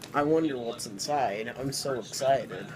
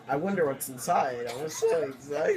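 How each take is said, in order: First: It is said with little enthusiasm. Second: It is said with more enthusiasm.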